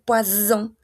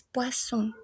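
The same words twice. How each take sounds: First: Poisson said with a buzzing z, like poison; wrong z sound. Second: Poisson with a soft hissing s, no buzz. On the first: Teacher showing students the wrong way, poisson with a z. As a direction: voice the double S in poisson as a z. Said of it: "no va a ser poisson". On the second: Teacher showing students the right way, poisson with a soft s. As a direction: keep the double S in poisson a plain soft s. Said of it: "como si fuese una S solita". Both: Shown as a demonstration.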